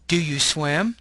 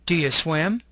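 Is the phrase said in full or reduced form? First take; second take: full; reduced. First: Each word is said fully and separately. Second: The words are weakened and run together. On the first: "you'll have the long form" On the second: "The second column has a reduced form"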